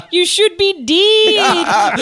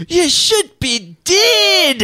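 First: Slow, high, loud Scottish shout; Scottish accent. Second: Put-on very slow, much higher thick Scottish accent; terrible Scottish impression. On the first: Retold or imitated. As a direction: bellow it like a Scottish local. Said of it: "in a Scottish accent". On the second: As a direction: ham up a Scottish mechanic's warning. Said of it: "thick Scottish accent that I will now do a terrible impression of".

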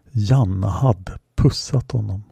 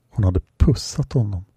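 First: "Janna" lingered on, slow and weighty; stress on Janna. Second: "Hon" stressed with a falling tune. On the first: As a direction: lean into "Janna" with wonder. Narrator dwells on the kiss. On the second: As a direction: hit "Hon" as if amazed it was her. Narrator repeats in disbelief. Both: A narrator's reading.

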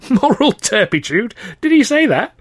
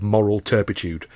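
First: High, squealing disbelief through laughter; laughing incredulously. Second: Said in the usual way. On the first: Acted. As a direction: repeat it while cracking up, "Moral turpitude?" slow and high. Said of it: "Freddie laughed fit to bust".

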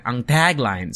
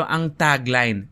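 First: "tagline" with an American flat a; American English accent. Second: Slow Filipino-accented "tagline"; Pinoy pronunciation. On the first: Host contrasting his own English, American accent. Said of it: "in my English accent for every English word". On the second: Host demonstrating the local way, Filipino accent. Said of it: "the way that Pinoy say it". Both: Shown as a demonstration.

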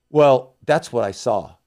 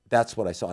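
First: "Well" drawn out slowly and louder; emphatic, slow. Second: Said in the usual way. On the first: Shown as a demonstration. Insisting to the host that he saw it, a slow and louder "Well". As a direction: lean hard on "Well, that's what I saw".

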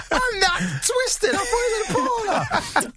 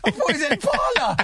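First: High and slow, giggling through every word; laughing. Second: High, giggly retelling through laughter; can barely get the name out for laughing. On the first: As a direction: repeat it helpless with laughter. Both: Real, not acted. Laughing at his own mistake.

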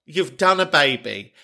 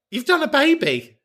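First: Said in the usual way. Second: Very high, squealed amazement; high-pitched mock-incredulous exclamation; comic indignation. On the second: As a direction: squeal it as if the fact settles everything. Indignant on caller's behalf.

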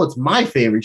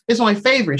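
First: "my" stressed in retold contradiction. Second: Said in the usual way. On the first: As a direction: lean on "my" to claim it. Contradicts the other's claim.

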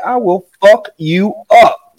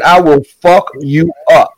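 First: Slow, deliberate menacing warning; slow threat. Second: Said in the usual way. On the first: Retold or imitated. Father pinning son, slow deliberate threat. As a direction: spell out every word so he gets it.

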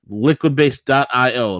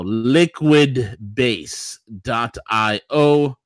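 First: Said in the usual way. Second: "liquidbase dot I O" stretched slowly; slow, drawn out. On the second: Shown as a demonstration.

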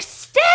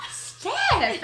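First: A louder, sharp call of "Steph!". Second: "Steph!" called much higher, falling at the end; a high, drawn-out plea of "Steph!". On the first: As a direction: snap "Steph!" out to stop her. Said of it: "And you're like, like". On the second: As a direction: narrator retelling her own shocked cry at Steph, high and falling. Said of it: "I was like". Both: Retold or imitated.

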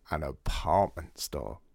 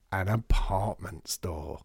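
First: Slow, savouring. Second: Slow, lower, relishing each word; slower savouring. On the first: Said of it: "Artie savours the phrase". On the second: Artie savouring Lydia's pun, slow and pleased. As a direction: taste the phrase like a new idea. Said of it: "Artie repeats it, slower, delighted". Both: Acted.

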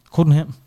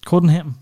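The two takes are said the same way.

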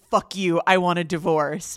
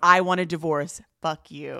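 First: A loud, mock grovelly snarl of fuck you, I want a divorce; hammed-up divorce demand, wrong way round; imitating a raw, grovelly outburst. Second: A loud, mock grovelly I want a divorce that drops away on fuck you; hammed-up, grovelly divorce line in the right order; imitating her raw, grovelly blow-up; mock grovelly outburst. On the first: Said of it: "grovelly voice". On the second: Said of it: "like, grovelly voice".

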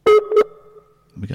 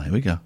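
First: Very high, very slow sing-song; dramatic drawn-out announcement. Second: Said in the usual way. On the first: Pretend. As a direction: stretch it out like a showman.

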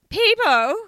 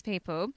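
First: People? pitched way up, loud and incredulous; mock disbelief. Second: Said in the usual way. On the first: Shown as a demonstration. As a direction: echo People? as a startled question. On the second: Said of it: "People? God".

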